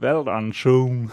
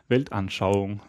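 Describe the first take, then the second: First: It is said with an English accent. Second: It is said with a native German accent.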